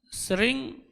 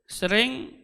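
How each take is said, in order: No difference in how they are said.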